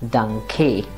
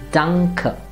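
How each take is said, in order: First: The final vowel is not a soft uh sound. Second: The final vowel is a soft, short uh sound. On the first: The speaker calls it wrong. "and not Danke" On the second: The speaker calls it right. "its pronunciation becomes A, so that this word will be pronounced as Danke"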